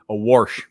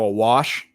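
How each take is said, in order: First: It is said with an R, Texas/Midwest style. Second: It is said without an R sound.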